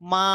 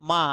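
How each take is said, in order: First: The pitch rises toward the end of the word. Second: The pitch dips in the middle, then rises. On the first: "লাস্টের দিকে জাস্ট একটু ভলিউম বাড়িয়ে দেবো" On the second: "মাঝখানে একটু কমিয়ে আবার লাস্টে শেষ করাটা একটু জোরে"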